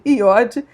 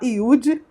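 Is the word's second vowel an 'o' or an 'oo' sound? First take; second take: o; oo. First: The second vowel sounds like 'o'. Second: The second vowel sounds like 'oo'. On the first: This is the form the speaker prefers. "eu gosto mais de iode" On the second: Some people say it this way. "Alguns vão falar iude"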